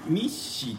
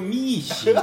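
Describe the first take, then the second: First: The first vowel is short, followed by a stop. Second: The first vowel is held long. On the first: The speaker calls it wrong. "ミッシーってなんかネッシーみたいに聞こえんねんけどね" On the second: The speaker calls it right. "こういうふうに伸ばしてもらえるとねなんか楽しいかも"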